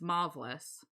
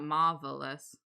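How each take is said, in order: First: The first syllable sounds like 'mauve'. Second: The first syllable sounds like 'mar'. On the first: The speaker calls it right. "It's marvelous" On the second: The speaker calls it wrong. "so it's not marvelous"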